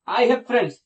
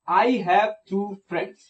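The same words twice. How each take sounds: First: Said in the usual way. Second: Very slow, spelling out each word; slow example read. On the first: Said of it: "लेकिन कितने हैं?". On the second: Shown as a demonstration. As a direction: read it out slowly for the class. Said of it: "मेरे पास दोस्त हैं". (धीरे-धीरे उदाहरण पढ़ना)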